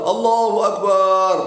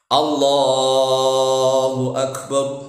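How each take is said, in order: First: The vowel in the last syllable is long. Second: The vowel in the last syllable is short. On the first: The speaker calls it wrong. "barnya panjang, walaupun salah makna" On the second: The speaker calls it right. "A-nya harus pendek, barnya juga pendek"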